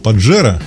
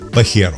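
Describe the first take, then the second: First: The middle consonant is a dzh sound. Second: The middle consonant is a breathy h sound. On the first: The speaker calls it wrong. "привычный нам «паджеро»" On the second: The speaker calls it right. "должен произноситься именно как «пахеро»"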